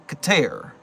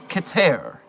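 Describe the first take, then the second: No difference in how they are said.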